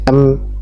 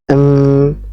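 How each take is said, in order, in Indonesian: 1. Bunyi m langsung berhenti mendadak. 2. Bunyi m ditahan dan mengalir terus. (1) "langsung mati, jangan ya. Ini tidak tepat" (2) "alirkan suaranya ya. Alirkan suaranya pertengahan"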